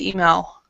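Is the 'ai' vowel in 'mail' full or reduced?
reduced. The 'ai' vowel sound is not fully pronounced. This is how people in the speaker's region say it.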